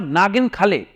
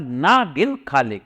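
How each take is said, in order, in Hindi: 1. पहला शब्द बिना रुके एक ही शब्द की तरह बोला जाता है। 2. 'na' और 'gin' के बीच एक विराम है।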